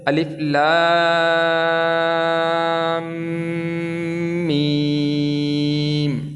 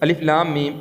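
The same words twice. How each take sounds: First: The vowels in the letter names are stretched long. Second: The letter names are said short, without stretching. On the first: The speaker calls it right. "इन हरूफों को हमने लंबा करना है ... बड़ी मद है" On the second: The speaker calls it wrong. "यहाँ पे बच्चे किस तरह पढ़ते हैं जी ... ये चीज़ गलत है"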